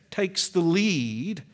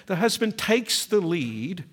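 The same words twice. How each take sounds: First: "takes the lead" slowed right down, each word weighted; slow emphatic. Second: Said in the usual way. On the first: Shown as a demonstration. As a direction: spell out "takes the lead" deliberately. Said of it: "here's the point of illustration". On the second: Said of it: "here's the point".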